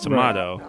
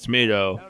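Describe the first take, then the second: First: The word is said in a pompous-sounding way. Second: The word is said in a plain, ordinary way. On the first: The speaker calls it wrong. "the wrong one is tomato. When you want to sound both pompous and wrong" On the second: The speaker calls it right. "the correct pronunciation is tomato"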